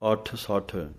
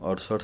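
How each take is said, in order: First: The consonants are held, with doubling. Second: The consonants are short, without doubling. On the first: The speaker calls it right. "ਅੱਧਕ ਲਗਾ ਕੇ ਥੋੜ੍ਹੀ" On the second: The speaker calls it wrong. "ਇਹਨੂੰ ਅੱਠ ਸੱਠ ਨਹੀਂ ਪੜ ਜਾਣਾ"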